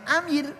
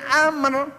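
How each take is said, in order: First: The word is pronounced with a light, thin sound. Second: The word is pronounced with a heavy, thick sound. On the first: The speaker calls it wrong. "jangan amir gitu ya" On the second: The speaker calls it right. "Nih dibaca tafhim"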